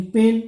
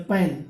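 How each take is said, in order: First: "पेन" with a long "ay" vowel, final e silent; लंबा ए स्वर. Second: "पैन" with a short open vowel, as in cat; छोटा ऐ स्वर. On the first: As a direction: say "पेन" like English pane. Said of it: "P A N E". ("पेन" में ए की लंबी आवाज़) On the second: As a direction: say "पैन" like English pan. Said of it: "P A N कर दिया". ("पैन" में ऐ की खुली आवाज़) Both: Shown as a demonstration.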